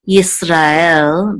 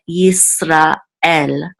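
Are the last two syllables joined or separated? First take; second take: joined; separated. First: The ra and el sounds run together. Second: A short break separates ra and el. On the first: The speaker calls it wrong. "You don't want to say Yisrael" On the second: The speaker calls it right. "but Yisrael. ... some kind of pause or breath right after Ra and before the Aleph"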